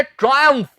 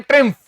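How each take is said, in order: First: ट्रायम्फ with a "try" opening; two syllables in ट्रायम्फ, first like "try"; correct pronunciation. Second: ट्रिम्फ squashed to one short syllable; the common slip ट्रिम्फ, vowel as in "trim"; wrong pronunciation. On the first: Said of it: "इसका उच्चारण होता है". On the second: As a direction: say ट्रिम्फ as "trimf". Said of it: "बहुत से लोग इसे बोल देते हैं". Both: Shown as a demonstration.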